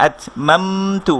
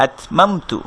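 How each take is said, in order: First: Slow, stretched আতমামতু; drawn-out reading. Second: Said in the usual way. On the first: Shown as a demonstration. Teacher shows students the wrong drawn-out reading, slow. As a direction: drag each syllable of আতমামতু. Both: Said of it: "এভাবে বলবো না কিন্তু".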